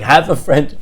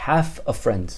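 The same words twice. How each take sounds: First: Loud, scoffing echo; mocking disbelief. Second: Said in the usual way. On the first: Son ridicules dad's answer, mocking. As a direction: throw it back with a laugh of scorn. Son mocks father's half friend.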